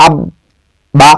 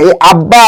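First: আব্বা stretched slowly with a held double b; আব্বা pronounced very slowly and deliberately; drawn-out demo. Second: Said in the usual way. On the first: Shown as a demonstration. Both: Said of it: "এই যে আব্বাটা কি".

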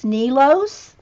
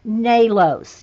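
First: Nalos said NEE-lohs with a questioning rise; alternative pronunciation. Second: Nalos said NAY-lohs, slow and falling; pronunciation attempt. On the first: Host unsure of the name, offering NEE-lohs. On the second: Host trying the next name for the author, saying NAY-lohs. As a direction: sound out Nalos slowly with an AY. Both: Real, not acted. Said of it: "getting all the pronunciations right".

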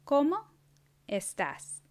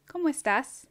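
First: Each part said apart, slowly; teacher modelling word by word; slowed, split in two. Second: Lively higher question. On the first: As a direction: pause between the words. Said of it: "then I'll say it slower". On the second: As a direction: ask it upward. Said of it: "say the words". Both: Shown as a demonstration.

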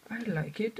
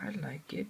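First: Said in the usual way. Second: Whispered. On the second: Real, not acted. Repeats in a whisper.

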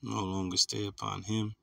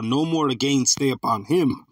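First: Low, soft skim of a verse; muttered to self. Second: Slow, emphatic scripture reading; scripture read aloud. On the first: Preacher hunting for his closing scripture, muttering to himself. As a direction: read it under your breath while searching. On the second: Preacher reading Isaiah to his listeners, proclaiming it slowly. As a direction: proclaim the verse to the congregation, drawn out. Reads the found verse out. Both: Real, not acted.

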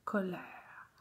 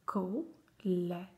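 First: Said in the usual way. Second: Colère split as "co - lè - re"; syllable by syllable. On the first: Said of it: "coller les syllabes". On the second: Shown as a demonstration. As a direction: pause after each piece of Colère. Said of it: "faire les syllabes".

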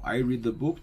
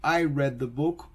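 First: "read" said as reed, rhyming with need; "read" with a long ee sound; present tense read. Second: "read" said as red, like the colour; "read" short, rhymes with bed; past tense read. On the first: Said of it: "yo leo el libro". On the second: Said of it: "yo leí el libro". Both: Shown as a demonstration.

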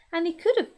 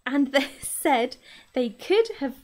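First: Said in the usual way. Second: Rereading a line through a laugh; correcting a misread line with a laugh. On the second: Real, not acted. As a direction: laugh at your own slip while rereading.

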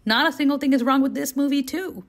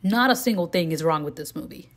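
First: Higher pitch on "Not a single thing", stressing "this movie too"; emphatic repeat. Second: Said in the usual way. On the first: Real, not acted. Reviewer giving the sequel the same verdict, emphatically, leaning on "too". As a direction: push "too" as the same verdict once more.

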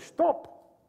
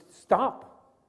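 First: High stop. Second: Drawn-out slow stop. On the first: Reading the Russian stop sign. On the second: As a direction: stretch out the word stop slowly. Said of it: "in a protective thing". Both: Shown as a demonstration.

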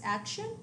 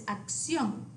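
First: Action as AK-shun, ending rising; English action, front-stressed with a sh sound; English pronunciation. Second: Acción as ahk-SYON; Spanish acción, end-stressed; Spanish pronunciation. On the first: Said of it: "the English word is action". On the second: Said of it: "the Spanish word is acción". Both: Shown as a demonstration.

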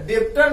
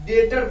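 First: डेप्टर with a lip stop before the T; wrong reading, डेप्टर said as "dep-ter"; B pronounced. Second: डेटर said as "det-er", straight to the T; silent B. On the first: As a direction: sound out the extra "p" in डेप्टर. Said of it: "डेप्टर नहीं". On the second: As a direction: drop the B from डेटर. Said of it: "डेटर पढ़ेंगे". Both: Shown as a demonstration.

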